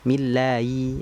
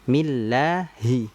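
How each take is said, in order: First: The h sound is blurred and barely heard. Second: The h sound is clearly voiced with its vowel. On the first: The speaker calls it wrong. "Nah, ini kan kurang tepat. Jangan sampai kita membacanya bismillai" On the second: The speaker calls it right. "Harusnya kan millahi"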